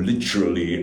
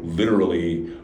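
First: It is said in a British accent. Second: It is said in an American accent.

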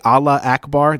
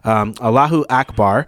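First: No vowel is heard between the two words. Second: An extra 'u' vowel links the two words. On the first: The speaker calls it wrong. "Some people say Allah Akbar. That's actually not correct" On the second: The speaker calls it right. "It's Allahu"

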